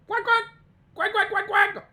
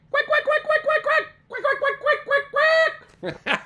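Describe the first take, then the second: First: Much higher, louder duck quacking; duck quacks. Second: Even higher loud playful quacking with laughs; duck quacks. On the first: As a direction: quack like a duckling. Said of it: "How do you think they said thank you?". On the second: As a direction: quack along for the kids. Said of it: "Let me hear you". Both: Shown as a demonstration.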